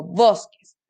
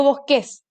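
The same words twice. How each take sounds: First: Bosques with stress on bos, lower and slower; right stress. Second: Bosques with stress on the last syllable ques; wrong stress. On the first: Teacher showing children the right stress. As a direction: lean on bos in bosques, slowly. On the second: Teacher showing children a wrong stress. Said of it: "Porque yo no digo". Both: Shown as a demonstration.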